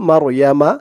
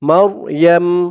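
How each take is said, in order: First: The word ends with a short a vowel. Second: The word ends on a bare m sound. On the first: The reader continues into the next word. "যদি আমরা এই সৎ চিহ্নতে না থামি" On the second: The reader stops at this word. "এখানে অক্ফ করার কারণে"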